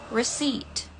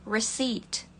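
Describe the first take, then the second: Both takes have the same delivery.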